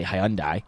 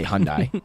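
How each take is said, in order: First: Hyundai in the speaker's preferred pronunciation; own pronunciation. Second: Hyundai shortened to two syllables, HUN-dai; co-host's pronunciation. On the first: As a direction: say Hyundai in three syllables, hai-UN-dai. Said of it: "how to pronounce it". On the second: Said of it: "you say Hyundai". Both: Shown as a demonstration.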